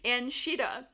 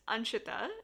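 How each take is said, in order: First: The name is said with American pronunciation. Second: The name is said with Indian pronunciation. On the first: This is the modified form used in the States. "so it got modified or remixed to Anshita" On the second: This is the original form of the name. "That's the original Indian way of saying it"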